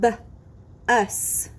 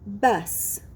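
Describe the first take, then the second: First: Short B, long pause, then "us"; segmented sounds. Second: Said in the usual way. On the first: Shown as a demonstration. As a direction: split "B-us" for blending. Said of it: "I will say the sounds in a word". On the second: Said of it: "you will blend the sounds".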